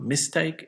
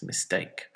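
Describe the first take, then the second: First: MIS-take, the learner's stress; stress on first syllable. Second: Mis-TAKE, said softly; stress on second syllable. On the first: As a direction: say mistake with the weight on MIS. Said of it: "And it's not mistake". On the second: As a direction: say mistake with the weight on TAKE. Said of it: "put it on the second one". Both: Shown as a demonstration.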